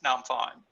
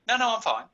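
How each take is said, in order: First: It sounds secretly upset despite the words. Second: It sounds genuinely fine and untroubled.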